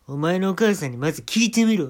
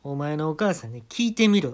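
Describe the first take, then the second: First: Much louder, higher, barking 「お前のお母さんにまず聞いてみろ」; rude loud command. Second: Louder, curt and rude order; blunt casual command. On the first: Comic barks at the manager, loud and rude. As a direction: shout 「お前のお母さんにまず聞いてみろ」 bossily. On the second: Comic tells manager to ask his mother, rudely. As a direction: talk down to the manager. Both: Acted. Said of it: "タメ口で".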